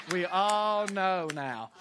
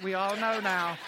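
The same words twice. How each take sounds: First: Slow, drawn-out knowing repeat. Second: Said in the usual way. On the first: Shown as a demonstration. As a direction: stretch out We all know now, every word slow. Crowd joke, repeated line.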